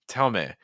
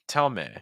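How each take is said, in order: No difference in how they are said.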